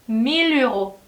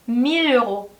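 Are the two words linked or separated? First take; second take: linked; linked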